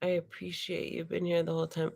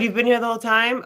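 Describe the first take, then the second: First: Said in the usual way. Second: Louder, higher, quick delighted question; pleased surprise. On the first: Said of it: "let me look at Jen's picture". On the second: Real, not acted. Teacher learns the student stayed all class, delighted. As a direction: react with glad surprise. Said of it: "Oh, good".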